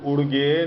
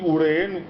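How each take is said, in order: First: The name is said with a g sound. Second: The name is said without a g sound. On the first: The speaker calls it wrong. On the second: The speaker calls it right.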